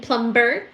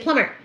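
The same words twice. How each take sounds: First: The B sound in the middle is pronounced. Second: The B sound in the middle is silent. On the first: The speaker calls it wrong. "I like to say ... The letter B in plumber" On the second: The speaker calls it right. "you're supposed to say plumber"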